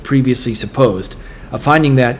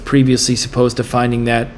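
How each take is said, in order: First: There is a pause after 'supposed'. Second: It runs on with no pause after 'supposed'. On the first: The speaker calls it right. "Let me read it with the right answer" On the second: The speaker calls it wrong. "if you don't pause at all, it makes no sense and you can't parse it"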